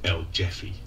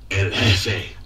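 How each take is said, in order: First: The word ends in an 'ee' sound. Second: The word ends in an 'eh' sound. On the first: The speaker calls it wrong. "ears are bleeding when Alache ... says El Jeffy" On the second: The speaker calls it right. "it should be El Jefe"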